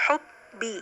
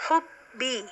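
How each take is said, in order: No difference in how they are said.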